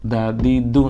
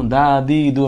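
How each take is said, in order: First: Said in the usual way. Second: দা দি দু with the first vowels drawn out long; wrongly stretched vowels. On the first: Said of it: "দা দি দু আমি বলতে পারবো না". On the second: Shown as a demonstration. Teacher shows forbidden lengthening, দা দি দু stretched. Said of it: "আমি বলতে পারবো না কারণ এখানে, আহ, হরকত".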